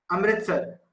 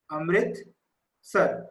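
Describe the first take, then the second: First: Said in the usual way. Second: Amritsar drawn out very slowly; slow dictation. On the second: Shown as a demonstration. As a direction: dictate the name part by part, unhurried. Repeats city name for writing.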